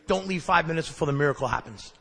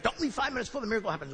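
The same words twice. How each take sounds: First: Said in the usual way. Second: Rattled-off slogan. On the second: Retold or imitated.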